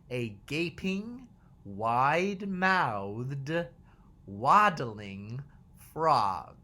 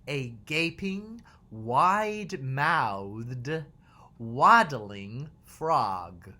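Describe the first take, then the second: No difference in how they are said.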